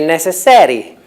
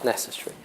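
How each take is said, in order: First: The stress is not on the first syllable. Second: The stress is on the first syllable. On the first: The speaker calls it wrong. "Most Italians would say necessary ... and that's not possible" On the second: The speaker calls it right. "with stress on the first syllable"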